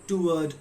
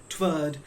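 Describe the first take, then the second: Both takes have the same delivery.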